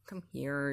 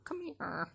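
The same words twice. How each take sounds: First: Said in the usual way. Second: High, soft sing-song call to a cat; calling kitty, higher and softer; coaxing pet call. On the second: Real, not acted. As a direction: coax the cat over in a raised, gentle voice.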